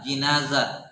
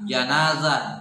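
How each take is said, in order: First: The first syllable has an 'i' vowel. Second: The first syllable has an 'a' vowel.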